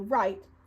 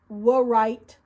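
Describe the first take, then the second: First: The word starts directly with the r. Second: A w sound is heard before the r. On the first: The speaker calls it right. "we say right" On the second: The speaker calls it wrong. "We don't say wa right"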